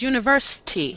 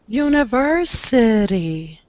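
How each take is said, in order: First: The short i vowels are dropped from the word. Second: The short i vowels are kept in the word. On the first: The speaker calls it wrong. "What you did the first time was university. There was no I sound" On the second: The speaker calls it right. "Don't remove the vowels. Keep the vowels"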